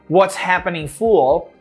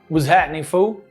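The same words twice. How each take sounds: First: The final L in fool is clearly pronounced. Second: The final L in fool is dropped. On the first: The speaker calls it wrong. "they don't say" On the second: The speaker calls it right. "the L is not really pronounced at the end"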